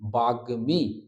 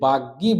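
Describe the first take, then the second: First: The middle cluster is said as gm. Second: The middle cluster is said as gy. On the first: The speaker calls it right. "এটা উচ্চারণ হচ্ছে বাগ্মী" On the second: The speaker calls it wrong. "অনেকেই আমরা ভুল উচ্চারণ করে অভ্যস্ত"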